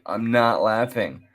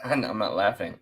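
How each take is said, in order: First: Said in the usual way. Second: Denying it through a laugh; insisting he isn't laughing while still laughing. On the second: Real, not acted. Host reacting to the clip, breaking into laughter.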